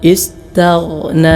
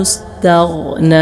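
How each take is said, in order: The two takes are said the same way.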